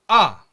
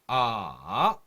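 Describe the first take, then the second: First: The pitch falls sharply and briefly. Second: The pitch dips down, then rises. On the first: "짧고 굵게 어, 끊어서 내는 소리를 사성" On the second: "삼성도 내려갔다가 올라오는 발음"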